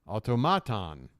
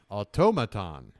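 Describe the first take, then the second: First: The stress is on the third syllable. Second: The stress is on the second syllable.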